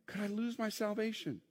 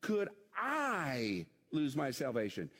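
First: Said in the usual way. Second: A long, drawn-out I; slow question leaning heavily on I; stress on I. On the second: Shown as a demonstration. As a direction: hit the word I hard and stretch it out. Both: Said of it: "the emphasis is on the wrong thing".

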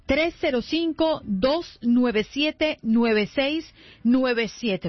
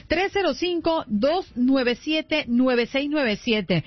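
First: Number read out in spaced groups, "nueve seis" held apart from "nueve siete"; slower dictation. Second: Said in the usual way. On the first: Real, not acted. Host giving listeners the WhatsApp number to note down, slower dictation. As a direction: dictate it with a pause before the last "nueve siete". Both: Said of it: "Así que vaya anotando".

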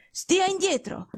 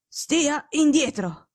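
First: Sharp imperious order, pitched higher; curt command. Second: Drawn-out stern warning, slow; slow imperious command. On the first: Sick detective ordering his friend away, curt and imperious. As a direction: snap him back from the bed. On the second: Sick detective repeating the order, slow and stern. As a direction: drag each word out as a firm order. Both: Acted. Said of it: "tono secco e imperioso".

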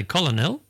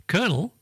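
First: Colonel as COL-o-nel; common mispronunciation. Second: Colonel as KER-nel; correct pronunciation. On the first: Host showing what people say, colonel as COL-o-nel. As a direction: say colonel as spelt, three syllables. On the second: Host giving the right word, Colonel like kernel. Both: Shown as a demonstration. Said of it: "a lot of people say colonel".

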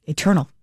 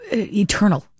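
First: Said in the usual way. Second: "eternal" lifted high then falling; emphatic. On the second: Real, not acted. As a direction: lean into "eternal" with a rising lift.

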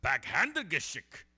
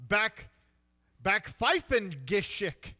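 First: Mangled German imitation. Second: Slow hammy German; drawn-out German word; mock German accent. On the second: Shown as a demonstration. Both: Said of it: "Say it one more time".

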